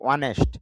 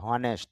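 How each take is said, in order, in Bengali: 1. এটি সরাসরি একটি স্বরধ্বনি দিয়ে শুরু হয়। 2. এটি h ধ্বনি দিয়ে শুরু হয়। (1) "এই যে সাউন্ডটা এটা চলে যাবে" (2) "হনেস্ট তো হবেই না"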